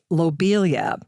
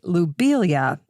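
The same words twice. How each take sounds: First: The first syllable sounds like 'low'. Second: The first syllable sounds like 'loo'. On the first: The speaker calls it wrong. "I used to say Lobelia" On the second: The speaker calls it right. "Lou would be the more correct pronunciation"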